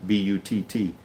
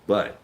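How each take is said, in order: First: "B U T T" spelled letter by letter. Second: Said in the usual way. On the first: Shown as a demonstration. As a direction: spell it out, one letter at a time: B U T T.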